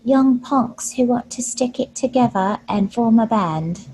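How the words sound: It is said in a tiny, meek voice.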